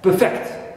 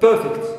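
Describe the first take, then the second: First: The stress is on the second syllable. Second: The stress is on the first syllable. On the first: It is the verb. "I move my stress or shift it to second syllable" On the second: It is the adjective. "in the first word I have long er, perfect, adjective"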